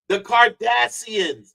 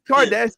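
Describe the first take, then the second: First: The middle consonant is a plain 's' sound. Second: The middle consonant is an 'sh' sound. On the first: "with no and with no H" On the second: "not the"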